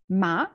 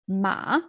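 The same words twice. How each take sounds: First: The pitch rises, and the syllable is shorter. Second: The pitch falls and then rises again. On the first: "a bit rising, shorter" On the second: "falling and rising"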